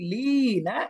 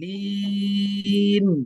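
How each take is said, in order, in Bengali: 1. শব্দটি একটি হ্রস্ব স্বরধ্বনি দিয়ে শেষ হয়। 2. শব্দটি একটি ব্যঞ্জনধ্বনি দিয়ে শেষ হয়। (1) "যদি আমরা নরমাল পড়ি" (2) "যদি এখানে ওয়াকফ করে দিই"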